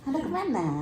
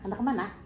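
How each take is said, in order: First: Final vowels are long, open and swinging. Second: Final vowels are cut short by a glottal catch. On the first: "Bilanya Hulu, bila diakhiri cukup terbuka, ... panjang dan berayun" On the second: "kalau kuala ... bunyi glota"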